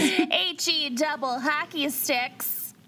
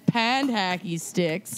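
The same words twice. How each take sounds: First: Put-on Minnesotan accent. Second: Put-on Minnesotan accent, slow. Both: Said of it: "unleash their worst Minnesotan accents".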